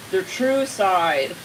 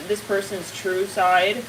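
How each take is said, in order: First: "true" drawn out very slowly; stress on true. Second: Said in the usual way. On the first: Real, not acted. Reader repeating a point to viewers, "true" stretched for emphasis.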